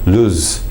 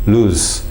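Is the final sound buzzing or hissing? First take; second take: hissing; hissing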